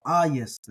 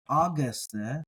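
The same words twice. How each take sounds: First: Aieste said ai-YES-te with a y in the middle; correct Greek pronunciation. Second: Ageste said with a hard g; wrong hard g. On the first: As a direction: say aieste with a y glide and stress on the first syllable. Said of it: "with the stress on the alpha". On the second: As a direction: say ageste with a hard g sound in the middle. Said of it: "So this is not". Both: Shown as a demonstration.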